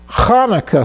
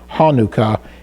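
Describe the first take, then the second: First: It begins with a throaty Hebrew ch sound. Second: It begins with a plain English h sound. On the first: "the actual Hebrew, the correct Hebrew pronunciation" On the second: "more of an English, easy for English-speaking people to pronounce"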